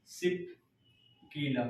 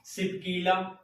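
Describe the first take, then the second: First: Soft, split in two with a long pause; dictation. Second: Said in the usual way. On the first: Shown as a demonstration. Teacher giving students time to write the pass name, broken dictation. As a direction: dictate it low and piece by piece. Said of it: "लिख लीजिएगा". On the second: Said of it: "कौन सा?".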